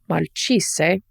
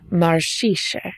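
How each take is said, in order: First: The middle consonant is a ch sound. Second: The middle consonant is an s, slightly sh-like. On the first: This is the standard Italian form. "not quite marcise, Italian for rot" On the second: This is the local dialect form. "a s with perhaps a hint of sh"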